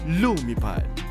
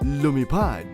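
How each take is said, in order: First: The stress is on the first syllable. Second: The stress is on the last syllable. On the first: "if it's dactylic, it's dum dada" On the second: "that would be anapestic"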